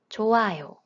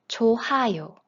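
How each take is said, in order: First: No h sound is heard before the second syllable. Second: An h sound is heard before the second syllable. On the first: The speaker calls it right. "It is 좋아요. Have you ever thought about why there is no sound?" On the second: The speaker calls it wrong. "you might think it's pronounced 좋아요 based on the rule we just learned"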